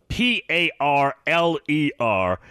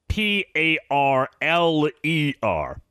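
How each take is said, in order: The two takes are said the same way.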